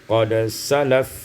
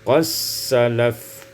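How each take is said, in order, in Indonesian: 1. Bunyi d terdengar sebelum s. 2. Bunyi d menyatu menjadi s ganda.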